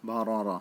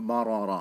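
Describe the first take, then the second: The two takes are said the same way.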